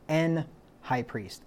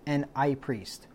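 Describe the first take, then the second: First: The h at the start of high is pronounced. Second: The h at the start of high is silent. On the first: "That's why the Bible says an high priest" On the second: "They don't pronounce the H in high"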